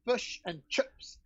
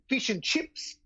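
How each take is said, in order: First: It is said in a New Zealand accent. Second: It is said in an Australian accent.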